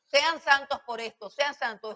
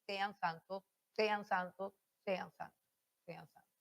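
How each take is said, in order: First: Authoritative command, weight on sean; firm commanding tone. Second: Sean santos repeated, softer each time until barely audible; repeated sean santos fading from quiet to almost silent. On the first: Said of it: "Y todo el tono debe estar así". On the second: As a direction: let sean santos die away to nothing. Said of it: "todo el tono debe estar así". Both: Shown as a demonstration.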